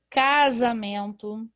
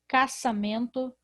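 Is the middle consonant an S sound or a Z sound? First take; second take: Z sound; S sound. First: The middle consonant is a buzzing Z sound. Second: The middle consonant is a hissing S sound. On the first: The speaker calls it right. "a letra S está entre vogais e por isso vai ter um som da letra Z" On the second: The speaker calls it wrong. "Se isso não fosse verdade, eu iria ler aqui"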